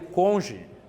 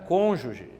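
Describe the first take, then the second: First: The word comes out in a distorted pronunciation. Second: The word has its standard dictionary pronunciation. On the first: The speaker calls it wrong. "saiu assim como eu estou te dizendo" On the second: The speaker calls it right. "A palavra era cônjuge"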